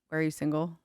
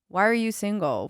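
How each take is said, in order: First: It sounds gentle and kind. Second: It sounds accusing, in Carrie Bradshaw's manner.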